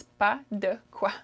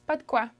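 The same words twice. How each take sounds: First: "Pas de quoi" slowly in three separate syllables, "de" fully sounded; full careful pronunciation. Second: "Pas de quoi" in two quick beats, "de" shrunk to a d; quick casual pronunciation. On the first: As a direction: spell out each word of "Pas de quoi" slowly. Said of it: "what I'm actually saying is". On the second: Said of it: "I say it pretty quickly". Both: Shown as a demonstration.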